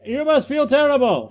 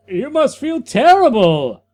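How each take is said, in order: First: "must" pushed high as a command; stress on must. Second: "terrible" hit as a loud exclamation; exclamation, not question. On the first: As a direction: tell her, don't ask. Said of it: "He's telling her". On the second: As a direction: declare it, no question in it. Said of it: "Not a question, an exclamation mark". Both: Shown as a demonstration.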